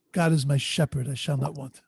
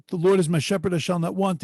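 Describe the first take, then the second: First: Sincere reading. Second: A beautiful theatrical recital; dramatic recitation. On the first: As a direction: speak the verse as to someone you truly know. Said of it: "But I know the shepherd". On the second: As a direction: perform the verse grandly for applause. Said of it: "he reads it in a very beautiful, dramatic way". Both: Retold or imitated.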